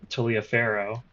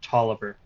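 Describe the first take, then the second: First: The name is said as it is spelled. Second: The name is said like 'Tolliver'. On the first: The speaker calls it wrong. "It should not be Taliaferro, as I've been saying" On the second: The speaker calls it right. "It should actually be Tolliver"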